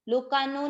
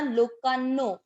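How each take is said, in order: First: The n sound in the middle is single. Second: The n sound in the middle is doubled. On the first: The speaker calls it wrong. "लोकानो नहीं पढ़ना" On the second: The speaker calls it right. "आधा न उच्चारण में आना चाहिए"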